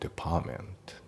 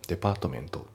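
First: The t before -ment is dropped. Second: The t before -ment is clearly pronounced. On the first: The speaker calls it right. "T が抜けますね" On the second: The speaker calls it wrong. "デパートメントじゃなくて"

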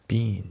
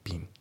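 First: The word is said in its full form. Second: The word is said in a reduced form. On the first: The speaker calls it wrong. "been じゃないですよね" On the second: The speaker calls it right. "been ですね"

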